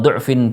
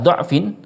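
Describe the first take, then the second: First: The first vowel is a rounded 'u' sound. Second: The first vowel is an open 'a' sound. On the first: "kita baca dhammah" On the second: "harus dibaca fathah semua"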